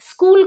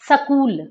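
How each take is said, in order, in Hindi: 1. s और k बिना किसी स्वर के जुड़े हैं। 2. s और k के बीच एक स्वर जोड़ा जाता है।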